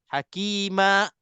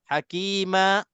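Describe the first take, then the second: First: The word ends with a sharp glottal stop. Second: The word ends with a sharp glottal stop.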